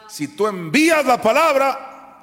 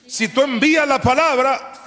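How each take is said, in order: First: High, loud, slower shout; full-force preaching. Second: High, loud shouted repetition; full-force preaching again. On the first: Preacher urging believers to send the word, shouting. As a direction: proclaim it like a battle cry. Preacher repeating his key line. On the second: Preacher repeating his promise to the church, shouting. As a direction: hammer the line home once more. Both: Acted.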